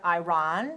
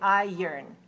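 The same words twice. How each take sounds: First: It ends with a ron sound, as spelled. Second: It ends with an urn sound. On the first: The speaker calls it wrong. "we don't pronounce it iron" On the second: The speaker calls it right. "We say iron"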